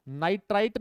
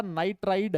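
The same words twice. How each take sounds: First: "नाइट्राइट" with a T sound at the end; mistaken final T. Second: "नाइट्राइड" with a voiced D at the end; corrected final D. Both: Shown as a demonstration. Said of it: "ये नाइट्राइट नहीं है बेटा".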